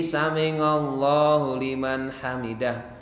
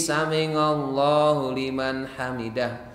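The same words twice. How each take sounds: First: The ain is pronounced as an ng sound. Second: The same.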